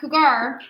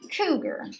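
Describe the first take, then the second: First: The stress is on the second syllable. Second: The stress is on the first syllable. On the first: The speaker calls it wrong. "It's not cougar" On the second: The speaker calls it right. "this first one is emphasized"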